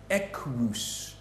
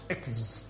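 First: The first V is sounded as a W. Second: The first V is sounded as a V. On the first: This is how the Romans said it. "the first V signified to them a W sound, and the second V signified for them an U sound" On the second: This is how it is pronounced today. "which of course we pronounce ikvs"

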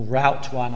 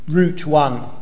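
First: Route is said the American way. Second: Route is said in a non-American way.

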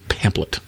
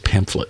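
First: The middle has no f sound. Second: The middle has an f sound. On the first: The speaker calls it wrong. "I think I grew up saying pamphlet, and that's not right" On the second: The speaker calls it right. "It's pamphlet"

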